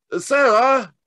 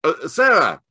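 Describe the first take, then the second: First: Much higher, louder shout across the lawn; calling louder. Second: Louder, higher call across the garden. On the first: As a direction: call her name again, stronger. Holmes calls again, louder. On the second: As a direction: hail the girl by the gate. Holmes calls girl at distance. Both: Acted.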